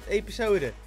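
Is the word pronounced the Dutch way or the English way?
Dutch. The word is pronounced the Dutch way. "niet episode. Maar ik ben lekker op zijn Nederlands ingesteld"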